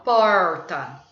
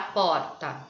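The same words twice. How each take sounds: First: It has the pulled caipira R. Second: It is said with a Paulistano accent.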